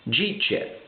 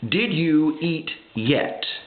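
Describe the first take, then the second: First: It is run together in a Southern way. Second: It is said fully in a Yankee way.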